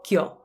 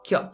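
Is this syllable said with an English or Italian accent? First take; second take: Italian; Italian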